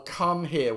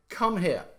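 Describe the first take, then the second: First: Both Come and here hit evenly; a spondee, Come here both strong; equal stress. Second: An order with the weight on Come; stress on come. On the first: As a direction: give Come and here the same weight. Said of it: "would be a spondy". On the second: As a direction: Come said high and hard, here dropping. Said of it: "You put the stress right on the front". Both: Shown as a demonstration.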